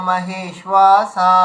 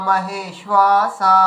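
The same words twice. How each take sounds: Both takes have the same delivery.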